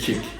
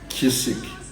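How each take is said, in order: First: The word is said with one syllable. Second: The word is said with two syllables. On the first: The speaker calls it right. "They say kick, and then you don't hear the C" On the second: The speaker calls it wrong. "they don't say kissik"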